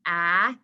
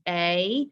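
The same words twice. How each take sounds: First: "Ah" as the held vowel of cat; short A. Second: "A" said as the letter's name, rising; long A. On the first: Teacher contrasting two vowels, short A "Ah". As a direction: open out "Ah" into a stretched short a. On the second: Teacher contrasting two vowels, long A "A". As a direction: stretch "A" as "ay". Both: Shown as a demonstration. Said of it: "you can even hear the way".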